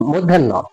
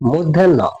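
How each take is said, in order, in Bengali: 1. এটি একটি শব্দ হিসেবে মিলেমিশে উচ্চারিত হয়, 'moddhanno'। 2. এটি একটি শব্দ হিসেবে মিলেমিশে উচ্চারিত হয়, 'moddhanno'।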